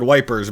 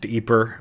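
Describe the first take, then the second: First: The name is said the British way. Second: The name is said the Dutch way. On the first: "it was called Wipers by the British" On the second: "pronounced Yper by the Dutch"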